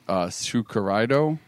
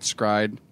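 First: The name is said as five syllables. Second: The name is said as one syllable. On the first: "According to Google, it's Tsukuraido" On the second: "some people call it Scryd"

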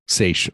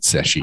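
First: The word ends in a 'sh' sound. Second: The word ends in a 'k-ee' sound. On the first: The speaker calls it right. "Seiche, sorry" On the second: The speaker calls it wrong. "I always want to pronounce it Secchi"

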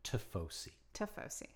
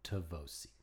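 First: The word is said without a v sound. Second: The word is said with a v sound. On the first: The speaker calls it right. "There's no V" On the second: The speaker calls it wrong. "not Tifosi. There's no V"

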